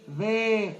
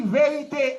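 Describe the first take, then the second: First: "Vérité" as three separate beats, vé, ri, té; teacher counting out "Vérité" in lower, detached syllables; split into syllables. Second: Said in the usual way. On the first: Shown as a demonstration. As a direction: sound out "Vérité" syllable by syllable with gaps. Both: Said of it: "vérité à trois syllabes".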